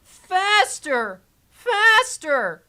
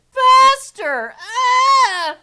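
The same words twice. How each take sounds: First: High, gleeful cries of faster; egging the ride on like a giddy kid; mock excited squeal. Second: Much higher, louder shriek of faster; hammed-up shriek. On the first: Riding along, squealing at the ride to go faster. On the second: Riding along, shrieking at the ride to go faster. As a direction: scream it like the thrill peaks.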